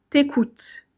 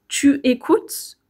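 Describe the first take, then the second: First: The vowel of tu is dropped and linked. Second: The vowel of tu is pronounced fully. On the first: It sounds informal. "que t'écoutes" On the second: It sounds formal. "plus formel de dire tu écoutes"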